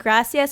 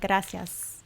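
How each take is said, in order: First: It is said with a plain English accent. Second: It is said with a Spanish accent. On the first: "Are you saying gracias" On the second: "putting the accent on like gracias"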